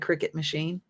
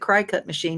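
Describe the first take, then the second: First: The first syllable sounds like 'crick'. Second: The first syllable sounds like 'cry'. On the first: The speaker calls it right. "not the Cricut machine" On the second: The speaker calls it wrong. "I've been calling it the cry cut machine"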